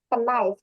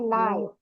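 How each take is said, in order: First: The K at the start is pronounced. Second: The K at the start is silent. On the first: The speaker calls it wrong. "bukan knife ya" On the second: The speaker calls it right. "silent K"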